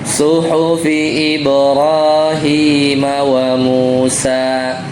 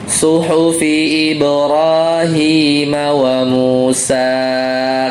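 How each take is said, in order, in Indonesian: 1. Vokal terakhir pada Musa panjangnya normal. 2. Vokal terakhir pada Musa dipanjangkan. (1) "jadi jangan terlalu panjang" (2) "karena mau ruku jadi panjang"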